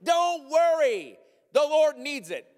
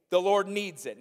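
First: High, loud and slow breezy reassurance; carefree thief explaining himself; mock-calm thief. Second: Said in the usual way. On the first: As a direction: brush off the owner like it's nothing. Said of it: "And you're like". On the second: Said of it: "reading the verse".

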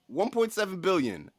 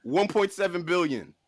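No difference in how they are said.

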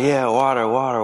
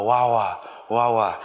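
First: Said in the usual way. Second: Imitating a toddler saying "Wawa" for water, lightly voiced; "Wawa" said babyishly, both syllables "wa". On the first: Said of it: "And I'm just like". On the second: Toddler at the balcony pointing at the ocean, lightly mimicking "Wawa". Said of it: "she goes".

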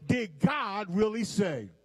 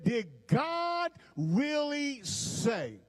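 First: Said in the usual way. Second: Slow, drawn-out preached question, pitched higher; preaching. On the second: Shown as a demonstration. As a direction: stretch every word like a preacher building up. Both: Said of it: "I feel my preach coming on".

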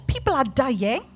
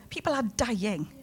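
First: Said in the usual way. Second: Hushed repeat. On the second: Real, not acted. Preacher repeats the warning to the congregation, hushed. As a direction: let it fall almost to a hush.

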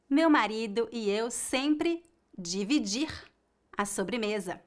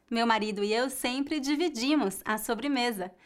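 First: "dividir" in the infinitive; the error take: "dividir"; wrong form. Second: "dividimos" stressed on "-di-" with a weak "-mos"; the answer take: "dividimos"; correct form. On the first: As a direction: say "dividir" as the mistake. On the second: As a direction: say "dividimos" with a faint ending. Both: Shown as a demonstration.

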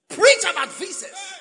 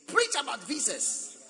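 First: High, loud preacher's cry; full-force pulpit shout on visas; preaching shout. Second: Said in the usual way. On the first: Shown as a demonstration.

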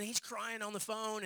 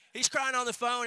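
First: Said in the usual way. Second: Louder and higher, "crying" hit hard; stress on crying. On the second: Real, not acted. Preacher repeats the line to the congregation, "crying" louder and higher.

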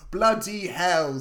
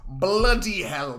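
First: Slow, exasperated bloody hell; grumpy exclaim. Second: Slow, a bit louder bloody hell; slow exasperated bloody hell. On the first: Otto grumbling at the neighbor's news, slow and exasperated. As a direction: drag out bloody hell like a grumpy old man. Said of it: "says Otto". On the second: Otto reacting to the ladder news, slow and exasperated. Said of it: "Bloody hell, says Otto". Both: Retold or imitated.

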